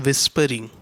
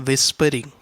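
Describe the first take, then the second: The two takes are said the same way.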